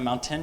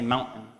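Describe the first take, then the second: First: The middle T is clearly pronounced. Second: The middle T is dropped entirely. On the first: "We don't say mountain" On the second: "there's no T. ... we say mountain"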